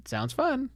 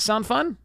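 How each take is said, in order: First: Softer self-reply "Sounds fun." said higher, as if agreeing with himself; answering himself. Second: Rising playful question to the audience; tossed-out "Sound fun?" asked upward, as if waiting for a reply; asking question. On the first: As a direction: answer your own question, pleased with it. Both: Pretend.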